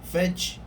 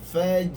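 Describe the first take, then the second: First: The final consonant is released with a puff of air. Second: The final consonant is released with a voiced bounce. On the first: The speaker calls it wrong. "jangan kita menyebut lantunan angin" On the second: The speaker calls it right. "Sepatutnya faj'al, faj. Lantunan suara"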